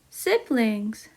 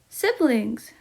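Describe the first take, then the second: First: It is said at normal speed. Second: It is said faster.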